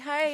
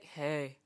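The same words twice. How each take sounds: First: It is said brightly and with enthusiasm. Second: It is said flatly in a sad tone. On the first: The greeter is happy to see the other person. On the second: The responder is not excited to hear from them.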